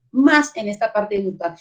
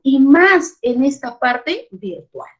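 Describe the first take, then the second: First: Said in the usual way. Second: Slow, weighty stress on más. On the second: Real, not acted. Teacher to colleagues, stressing "más" slowly. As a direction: lean hard on "más", drawn out.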